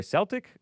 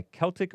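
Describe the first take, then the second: First: "Celtic" begun with an S sound. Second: "Celtic" begun with a K sound; hard-C Celtic. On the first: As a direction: say "Celtic" as SEL-tik. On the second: Host unsure how it's said, "Celtic" with hard K. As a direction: say "Celtic" as KEL-tik. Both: Real, not acted. Weighing two pronunciations of one word.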